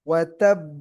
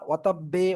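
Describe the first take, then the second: First: The final b bounces without any added vowel. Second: The final b is followed by an 'e' vowel. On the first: The speaker calls it right. "যেন বে না শোনা যায়" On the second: The speaker calls it wrong. "এরকম না"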